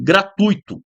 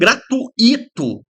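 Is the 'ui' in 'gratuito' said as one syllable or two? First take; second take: one syllable; two syllables. First: The 'ui' is joined into one syllable. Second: The 'u' and 'i' are split into two syllables. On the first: The speaker calls it right. "isso aqui é um ditongo" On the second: The speaker calls it wrong. "Aí as pessoas falam gratuito... forma o hiato"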